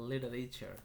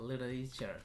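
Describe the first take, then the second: Both takes have the same delivery.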